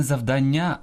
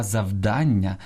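First: Завдання stressed on final НЯ; end-stressed завдання; wrong last-syllable stress. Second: Завдання stressed on ДАН, slow; stress on middle syllable. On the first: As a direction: say зав-дан-НЯ. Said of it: "Правильно казати не". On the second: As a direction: say зав-ДАН-ня. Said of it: "Правильно казати". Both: Shown as a demonstration.

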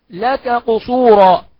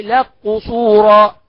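First: Said in the usual way. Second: "لك قصورا" as laq-qusura, slow and loud; kaf merged into qaf. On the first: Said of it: "اه، الكاف مع القاف". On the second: Shown as a demonstration. Teacher demonstrating the merge, "لك قصورا" drawn out as laq-qusura. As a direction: turn the ك of "لك" into a doubled q. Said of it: "يبقى ندغم، نقول ايه؟".

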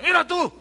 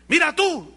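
First: Mira tú, high and loud again; mock surprise. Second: Mira tú, pitched up and loud; mock surprise. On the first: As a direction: point him out with fake wonder. (asombro burlón, agudo y fuerte) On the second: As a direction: show off with fake wonder. (asombro burlón y fuerte) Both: Pastor presume al otro.

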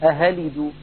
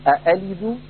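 First: أهلد with the second hamza turned into an h; wrong reading with h; h instead of hamza. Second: أألد with both glottal stops fully pronounced; fully articulated hamza in أألد; full hamza, wrong. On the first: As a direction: demonstrate the error أهلد, h sound in place of hamza. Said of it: "ولا هي مبدلة هاء". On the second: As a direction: show أألد with a hard second hamza, as a mistake. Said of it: "فلا هي محققة". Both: Shown as a demonstration.

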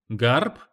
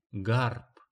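First: GARP said louder as a puzzled question; questioning repeat. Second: Understated curt reply. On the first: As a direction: query the word GARP, pitch rising. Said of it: "переспросил он". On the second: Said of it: "коротко сказала она". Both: A narrator's reading.

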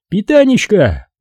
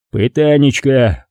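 First: High-pitched, exasperated exclamation; exclaiming commissar. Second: Agreeing echo. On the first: Acted. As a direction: throw the word out high, as an outburst. Commissar ends his agitated outburst. (высокий возглас возбуждённого комиссара) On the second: A narrator's reading. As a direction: echo it slowly, conceding the point. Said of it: "согласился Беседин". (протяжно, соглашаясь)

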